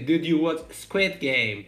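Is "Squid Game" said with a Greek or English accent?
English. "Squid Game" switches to an English accent.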